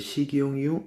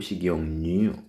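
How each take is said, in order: First: No n sound is added before the last syllable. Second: An n sound is added before the last syllable. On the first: The speaker calls it wrong. "이게 아니고" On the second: The speaker calls it right. "이런 식으로 니은 첨가됐죠"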